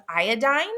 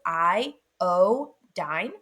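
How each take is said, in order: First: Said in the usual way. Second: "I, O, dine" as three separate syllables, lower; syllables broken apart. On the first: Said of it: "We can break those". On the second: Shown as a demonstration. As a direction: pause between "I", "O" and "dine", each vowel long. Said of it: "syllables apart and we can clearly hear".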